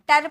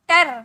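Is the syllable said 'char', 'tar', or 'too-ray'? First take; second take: tar; tar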